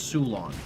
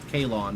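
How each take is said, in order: First: The word begins with an S sound. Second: The word begins with a K sound. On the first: The speaker calls it right. "but it's Sulon" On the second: The speaker calls it wrong. "It looks like it's pronounced Kalon"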